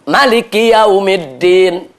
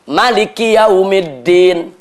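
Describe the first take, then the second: First: The vowel after the m is short. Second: The same.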